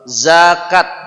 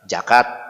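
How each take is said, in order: First: The word begins with a buzzing z sound. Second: The word begins with a j sound. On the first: The speaker calls it right. "dia seperti huruf Z dalam bahasa Indonesia" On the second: The speaker calls it wrong. "ini semua diganti dengan huruf J"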